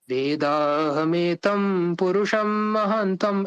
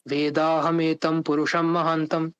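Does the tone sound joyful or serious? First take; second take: joyful; serious. First: It is said in a joyful, happy mood. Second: It is said in a serious, sober mood.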